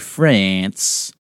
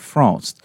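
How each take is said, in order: First: It is said with an American pronunciation. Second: It is said with a French pronunciation. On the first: "How Americans say it" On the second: "That's how the French say it"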